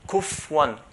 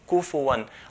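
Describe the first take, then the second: First: The f has no vowel after it. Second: The f is followed by a short u vowel. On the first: The speaker calls it wrong. "we should not pronounce it as a sukun. Pronouncing it as a sukun is wrong" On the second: The speaker calls it right. "but kufu"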